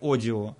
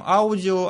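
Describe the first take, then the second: First: The word begins with a plain o sound. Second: The word begins with the diphthong au. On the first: This is how English speakers say it. "они говорят «одио»" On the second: This is how Russian speakers say it. "мы говорим «аудио»"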